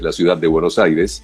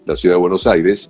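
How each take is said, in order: First: The word "de" is clearly pronounced. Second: The word "de" is skipped over quickly. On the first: The speaker calls it right. "ahí sí la mencioné" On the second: The speaker calls it wrong. "la palabra de no la pronuncié"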